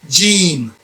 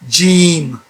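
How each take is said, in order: First: The first sound is a firm J. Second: The first sound is a firm J.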